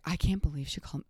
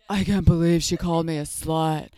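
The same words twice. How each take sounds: First: Said in the usual way. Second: Loud put-on voice, aggrieved; hammed-up wounded indignation; Luann. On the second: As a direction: do an exaggerated impression of an outraged housewife. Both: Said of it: "let me do a Luann voice".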